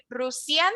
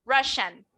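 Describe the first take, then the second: First: Russian said with an s, rus-ya; Russian with an s sound, the wrong way. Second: Russian said as rash-an with sh. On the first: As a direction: incorrect Russian with s. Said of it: "no voy a decir". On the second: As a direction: correct Russian with sh. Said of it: "voy a decir". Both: Shown as a demonstration.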